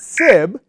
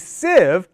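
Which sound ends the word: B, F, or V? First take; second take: B; V. First: The word ends with a B sound. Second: The word ends with a voiced V sound. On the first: The speaker calls it wrong. "not sib" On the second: The speaker calls it right. "that word sieve has that V sound at the end"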